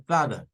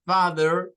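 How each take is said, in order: First: British father without r; non-rhotic father. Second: Father ending in a clear er; American father with final r; rhotic father. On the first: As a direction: drop the final r in father. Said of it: "El inglés no rótico lo diría como father". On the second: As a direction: sound the r at the end of father. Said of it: "father con er". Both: Shown as a demonstration.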